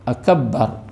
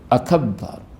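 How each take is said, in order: First: The b sound is doubled and held. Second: The same.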